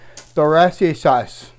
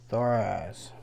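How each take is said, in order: First: The name is said in a longer, fuller form. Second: The name is said in a short, clipped form. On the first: The speaker calls it right. "That's how you say it" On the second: The speaker calls it wrong. "I got in the bad habit of saying Thoraz"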